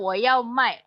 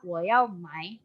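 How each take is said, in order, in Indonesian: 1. Suku kata terakhir memakai nada yang berarti 'jual'. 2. Suku kata terakhir memakai nada yang berarti 'beli'. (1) "yang pertama jual" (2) "Yang kedua ... beli"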